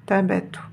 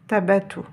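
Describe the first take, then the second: First: The b sound is short and single. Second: The b sound is short and single.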